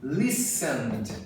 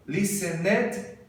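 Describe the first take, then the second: First: LISTENED as two syllables, "LISS-end"; "Listened" with no extra ed syllable; correct pronunciation. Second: LISTENED as three syllables, lis-en-ED; wrong "listened" with an added "ed"; mispronounced extra syllable. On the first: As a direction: end "Listened" straight on nd, lower. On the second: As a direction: sound out the -ed in "listened". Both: Shown as a demonstration. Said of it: "não".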